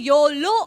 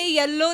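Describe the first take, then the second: First: The first vowel sounds like 'oh', as in yolo. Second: The first vowel sounds like 'eh', as in yellow. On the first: The speaker calls it right. "योलो आहे" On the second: The speaker calls it wrong. "ते येल्लो नाही"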